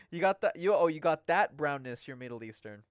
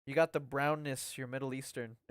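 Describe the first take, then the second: First: "that" punched louder in a corrected reread; stress on THAT. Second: Said in the usual way. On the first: Real, not acted. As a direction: reread it leaning hard on "that", then drop away.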